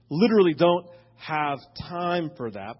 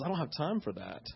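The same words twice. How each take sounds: First: Said in the usual way. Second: A much softer, muttered inner thought; quiet first thought. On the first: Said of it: "I mean, I literally". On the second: Retold or imitated. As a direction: say it under your breath like a private first reaction. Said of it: "And my first thought was".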